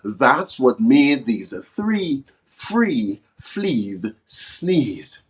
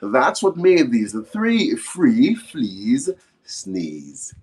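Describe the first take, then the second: First: It is said at a slower pace. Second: It is said at a faster pace.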